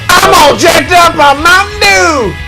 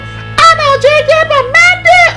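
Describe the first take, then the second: First: It is said in an ordinary voice. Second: It is said with a childlike, innocent lilt.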